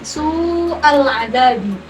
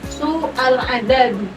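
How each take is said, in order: First: The vowel is held long. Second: The vowel is cut short. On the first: The speaker calls it right. "su'al adabi harusnya panjang" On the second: The speaker calls it wrong. "tidak dibaca panjang"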